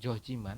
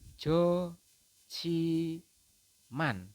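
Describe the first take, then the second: First: The middle consonant is a plain j sound. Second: The middle consonant is an aspirated ch sound. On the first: The speaker calls it wrong. "tetapi ini salah teman-teman" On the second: The speaker calls it right. "maka jiet berubah menjadi ci"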